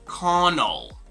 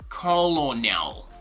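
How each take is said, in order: First: The word is said without an L sound. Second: The word is said with an L sound. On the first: The speaker calls it right. "but rather Connell" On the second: The speaker calls it wrong. "this is not gonna be colonel"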